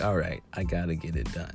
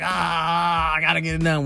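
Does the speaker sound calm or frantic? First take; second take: calm; frantic. First: It sounds calm and determined. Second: It sounds hurried and frantic.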